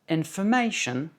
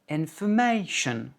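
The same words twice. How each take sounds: Both takes have the same delivery.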